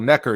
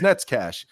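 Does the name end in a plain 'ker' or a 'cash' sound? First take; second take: ker; cash. First: The name is said as 'Necker', English style. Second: The name is said as 'Netzcash', Czech style. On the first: The name is read as if it were English. The speaker calls it wrong. "He'd always say, "Oh, well, Necker" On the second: The name is read as in its own language. The speaker calls it right. "you know that how that's pronounced, it's Netzcash"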